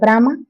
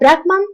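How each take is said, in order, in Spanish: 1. La palabra termina en vocal. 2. La palabra termina en sonido n.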